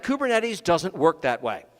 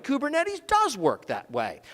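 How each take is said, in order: First: Said in the usual way. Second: "does" punched high in contradiction; stress on DOES. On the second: Shown as a demonstration. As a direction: lean hard on "does", pitch up then falling. Contradicts the line just said.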